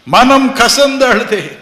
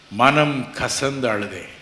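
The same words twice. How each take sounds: First: Loud, high, slow bitter cry; loud slow lament; bitter weeping cry. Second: Said in the usual way. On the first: Retold or imitated. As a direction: wail the bitterness out slowly.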